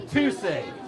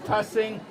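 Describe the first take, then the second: First: The first syllable sounds like the word 'two'. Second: The first syllable rhymes with 'fuss'. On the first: The speaker calls it right. "the number two and the word "sing"" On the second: The speaker calls it wrong. "change the pronunciation from Tussing"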